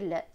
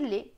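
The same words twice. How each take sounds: First: The vowel is open, like è. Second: The vowel is closed, like é. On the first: This is how some regions read it. "dans certaines régions est" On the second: This is how other regions read it. "dans d'autres et"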